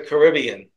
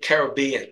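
First: The stress is not on the third syllable. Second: The stress is on the third syllable. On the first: The speaker calls it wrong. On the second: The speaker calls it right.

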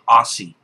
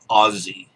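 First: The word is pronounced the American way. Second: The word is pronounced a non-American way. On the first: The speaker calls it wrong. "I'm not an American, I don't say Aussie" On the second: The speaker calls it right. "I say Aussie"

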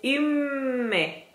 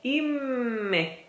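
Both takes have the same delivery.

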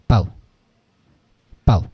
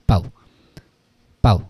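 No difference in how they are said.

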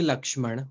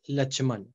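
First: The middle consonant is a 'ksh' cluster. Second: The middle consonant is a plain 'ch' sound. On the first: This is the standard Hindi form. "we don't say Lakshman" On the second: This is the Awadhi and Bhojpuri form used by the community. "we say Lachman"

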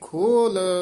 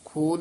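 First: The word is said with a heavier sound. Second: The word is said with a lighter sound. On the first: The speaker calls it right. "ਇਹ ਖੋਲ ਥੋੜਾ ਜਿਹਾ ਭਾਰਾ ਹੀ ਉਚਾਰਨ ਕਰਨਾ" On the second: The speaker calls it wrong. "ਖੋਲ ਨਹੀਂ ਕਹਿਣਾ"

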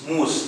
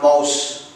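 First: The vowel sounds like the one in 'goose'. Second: The vowel sounds like the one in 'house'. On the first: The speaker calls it right. "It's mousse" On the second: The speaker calls it wrong. "It's not mouse"

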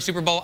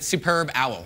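First: The b sound starts the second word. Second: The b sound ends the first word. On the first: It names the football game. "whenever I see the word Super Bowl" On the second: It names an excellent bird. "I'd like to pronounce it Superb Owl"

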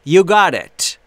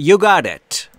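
No difference in how they are said.

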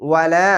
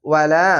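The two takes are said the same way.

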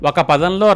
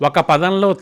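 No difference in how they are said.

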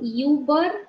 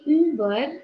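First: The first vowel is a glide, 'ee-oo'. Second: The first vowel is a single rounded 'ü'. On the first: The speaker calls it wrong. "să nu citim IU, deci nu Über" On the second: The speaker calls it right. "ci Über"

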